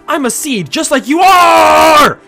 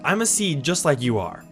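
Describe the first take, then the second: First: The last word 'are' is strongly emphasized. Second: The last word is said without special emphasis.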